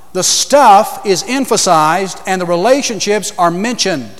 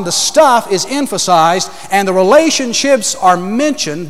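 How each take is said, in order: First: Stuff leaned on, rest steady; stress on stuff. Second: Relationships lifted and held, rest steady; stress on relationships. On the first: Preacher to congregation, stress on stuff. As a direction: press the word stuff as the preacher stresses his point. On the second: Preacher repeating for congregation, stress on relationships. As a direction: repeat it, now leaning on relationships. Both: Shown as a demonstration. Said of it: "Let me say it again".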